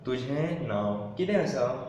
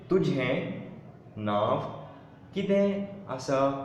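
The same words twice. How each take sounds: First: It is said at normal conversational speed. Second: It is said slowly and carefully.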